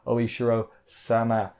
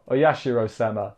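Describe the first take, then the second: First: The name is said without the middle ya sound. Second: The name is said with the middle ya sound. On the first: The speaker calls it wrong. "even if I'm saying it wrong" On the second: The speaker calls it right. "There we go. I said it right once"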